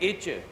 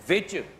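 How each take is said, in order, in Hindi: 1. यह शब्द स्वर की आवाज़ से शुरू होता है। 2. यह शब्द v की आवाज़ से शुरू होता है। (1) "तुम पढ़ रहे हो अलिफ चे है" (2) "लफ्ज़ है विच, वाओ चे हे है"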